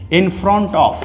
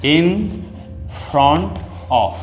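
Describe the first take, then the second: First: Said in the usual way. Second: "in", a pause, then "front of"; split apart. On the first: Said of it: "teaching a phrase". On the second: Shown as a demonstration. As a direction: break the phrase for the class. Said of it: "repeating word by word". (रुककर अलग-अलग बोलना)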